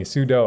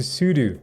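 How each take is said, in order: First: Sudo said soo-doh, the last syllable like dough. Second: Sudo said soo-doo, both syllables with a long oo. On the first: Trying chat's way of saying it, sudo said soo-doh. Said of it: "There we go, sudo to me". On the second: Insisting to chat that it is soo-doo, sudo said soo-doo. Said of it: "it will never be anything but su". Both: Shown as a demonstration.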